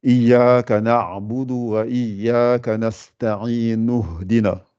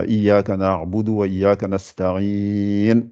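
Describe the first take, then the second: First: Very slow recitation, "nasta'in" running straight into "nuhdina" with no I; recited with liaison. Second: Slow Quran recitation, pausing after nasta'in; recited with a stop. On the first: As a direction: chant it slowly and join "nuhdina" on without a break. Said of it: "Par exemple, je dis". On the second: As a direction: chant "Iyyaka na'budu wa iyyaka nasta'in" slowly and stop cleanly at the verse end. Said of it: "Vous êtes arrêté". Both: Shown as a demonstration.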